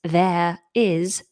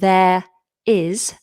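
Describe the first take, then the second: Both takes have the same delivery.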